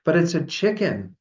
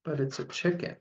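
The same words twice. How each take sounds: First: Higher-pitched, insistent storybook protest. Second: Small, soft, higher-pitched tearful plea; almost in tears. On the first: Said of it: "they protested". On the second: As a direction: plead softly as if about to cry. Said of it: "was almost in tears". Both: A narrator's reading.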